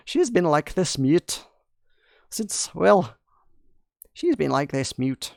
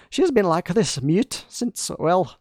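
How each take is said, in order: First: Said in the usual way. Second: A hint of a Scottish accent, raised in pitch; lightly put-on Scottish lilt; half-joking Scottish accent; mock Scottish accent. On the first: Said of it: "supposed to be more German". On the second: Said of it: "Now I feel like she's Scottish".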